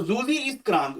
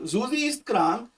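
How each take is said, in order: First: Slow dictation. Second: Slower dictation. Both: Shown as a demonstration. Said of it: "तो जूजी ही बोलना है इसको".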